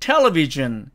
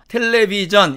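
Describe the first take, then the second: First: One syllable is stressed above the others. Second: All syllables have the same pitch and length. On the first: It is the foreign-language English way of saying it. "이것은 외국어식 발음이 되는 거죠" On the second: It is the Korean loanword way of saying it. "모두가 똑같은 높이와 똑같은 길이로 발음을 함을 알 수가 있습니다. 이것이 외래어식 발음이고요"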